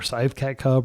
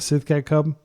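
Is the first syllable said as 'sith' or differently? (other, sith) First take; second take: other; sith. First: The first syllable is not said as 'sith'. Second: The first syllable is said as 'sith'. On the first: "or however it's pronounced" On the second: "I always like to pronounce it Sith"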